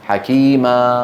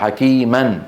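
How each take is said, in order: First: The word ends in a long a, no n. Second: The word ends in a short a plus n.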